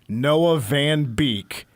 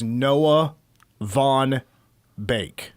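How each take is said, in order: First: The surname is said like 'beak'. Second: The surname is said like 'bake'. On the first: This is how the spelling looks. "if you look look at it, it is" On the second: This is how the person herself says it. "the way she pronounces her name is"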